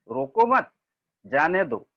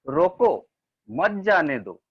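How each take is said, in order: First: There is a pause after मत. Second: There is a pause after रोको.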